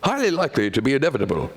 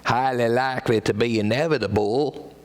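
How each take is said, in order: First: It is said in a London accent. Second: It is said in a cowboy drawl. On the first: "And if from London" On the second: "if he was a cowboy"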